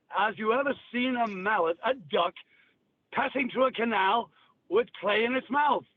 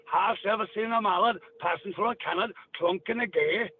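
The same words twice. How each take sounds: First: Said in the usual way. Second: Odd dialect verse, Gaelic lilt; Gaelic-style Cornish. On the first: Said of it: "weird fucking language". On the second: Shown as a demonstration. Demonstrating a weird old language, Gaelic-style dialect. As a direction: recite a riddle in Gaelic-tinged dialect. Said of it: "listen to the Gaelic".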